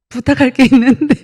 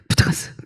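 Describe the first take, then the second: First: The words are spoken clearly and distinctly. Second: The words are mumbled together inside the mouth. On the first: The speaker calls it right. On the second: The speaker calls it wrong.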